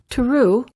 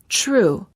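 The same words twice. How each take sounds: First: The word begins with a plain t sound. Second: The word begins with a ch-like sound. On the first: The speaker calls it wrong. "Instead of saying true" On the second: The speaker calls it right. "we say true. ... say ch as in chain"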